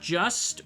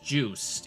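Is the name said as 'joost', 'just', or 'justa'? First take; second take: just; joost. First: The name is said like the word 'just'. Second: The name is said with a long 'oo' vowel. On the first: The speaker calls it wrong. "It's not just" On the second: The speaker calls it right. "it's pronounced Joost"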